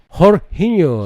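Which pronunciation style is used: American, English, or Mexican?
Mexican. The name is said with a Mexican Spanish pronunciation. "Kalau Meksiko"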